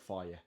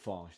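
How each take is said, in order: First: The name ends with a vowel sound. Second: The name ends with a consonant sound. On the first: This is how Greek speakers say it. The speaker calls it wrong. "The Greeks call it faye. They're pronouncing it wrong though" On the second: This is the speaker's own way of saying it. The speaker calls it right. "I call it farge"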